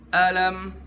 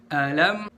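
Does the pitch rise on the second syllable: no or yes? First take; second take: no; yes. First: The pitch does not rise on the second syllable. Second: The pitch rises slightly on the second syllable. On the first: The speaker calls it wrong. "jangan kita baca alam" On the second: The speaker calls it right. "Pertama a, terus naikin dikit di lam"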